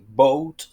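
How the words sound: It is said in an American accent. "you don't say boat like in American English"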